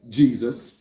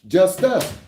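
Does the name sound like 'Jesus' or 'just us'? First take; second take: Jesus; just us. First: It is said as the usual name Jesus. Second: It is said as the two words just us. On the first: The speaker calls it wrong. "you phonetically sounded out incorrectly" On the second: The speaker calls it right. "it's pronounced just us"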